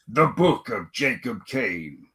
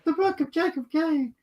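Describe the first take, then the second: First: The title is said in a cool, dramatic way. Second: The title is said plainly, without flair. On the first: The speaker calls it right. "You got to say it cool" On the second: The speaker calls it wrong. "You can't just say"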